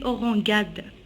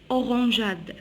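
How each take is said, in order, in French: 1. Le G du milieu est dur, comme 'g' dans 'go'. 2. Le G du milieu est doux, comme 'zh'. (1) "si j'enlève le E, on dit orangade" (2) "une orangeade"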